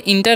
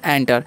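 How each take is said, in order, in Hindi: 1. यह शब्द 'i' स्वर से शुरू होता है। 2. यह शब्द 'e' स्वर से शुरू होता है। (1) "इसे इंटर नहीं पढ़ना है" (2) "एंटर पढ़ना है"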